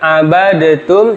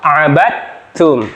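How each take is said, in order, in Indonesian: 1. Bunyi d dibunyikan terpisah sebelum t. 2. Bunyi d melebur ke dalam huruf t setelahnya. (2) "dalnya dihilangkan. Idgham masuk ke huruf ta"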